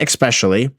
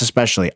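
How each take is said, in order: First: It begins with an 'ex' sound, adding a k. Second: It begins with a plain 'es' sound, no k. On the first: The speaker calls it wrong. "Stop putting the X in espresso and in especially. It's not especially" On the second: The speaker calls it right. "But that's not how you say it. It's especially"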